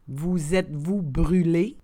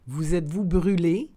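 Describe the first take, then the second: First: The phrase is said slowly and carefully. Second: The phrase is said at conversational speed. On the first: "then slowly said in French" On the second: "and then in communicational Canadian French"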